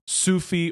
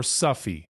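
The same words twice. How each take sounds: First: "Sufi" as SOO-fee, vowel of "food"; long-u Sufi. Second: "Sufi" as SUFF-ee, vowel of "cup"; short-u Sufi. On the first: Lecturer showing one way to say it, "Sufi" said SOO-fee. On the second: Lecturer showing the other way to say it, "Sufi" said SUFF-ee. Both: Shown as a demonstration. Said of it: "has been pronounced".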